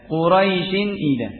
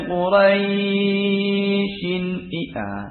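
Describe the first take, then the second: First: The vowel sound in Quraisyin is kept short. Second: The vowel sound in Quraisyin is held long. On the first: The speaker calls it right. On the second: The speaker calls it wrong.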